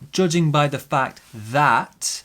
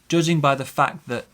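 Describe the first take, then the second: First: The word 'the' has a full vowel. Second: The word 'the' has a weak vowel. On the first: The speaker calls it wrong. "It's not" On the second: The speaker calls it right. "It's a weak sound"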